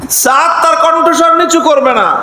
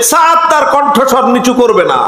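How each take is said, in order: First: "নিচু" pushed high and firm on the repeat; raised repeat. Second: Said in the usual way. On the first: Retold or imitated. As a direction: repeat it higher, refusing to back down. (দ্বিতীয়বার উঁচু গলায় "নিচু" জোর দিয়ে) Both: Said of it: "আরো চেচ্ছেন সাদ ইবনে মুআজ".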